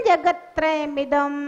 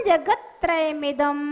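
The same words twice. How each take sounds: Both takes have the same delivery.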